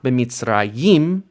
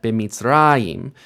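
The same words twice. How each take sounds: First: The stress is on the last syllable. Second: The stress is on the next-to-last syllable. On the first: The speaker calls it wrong. "not b'mitzrayim" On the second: The speaker calls it right. "but b'mitzrayim"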